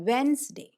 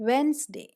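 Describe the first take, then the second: The two takes are said the same way.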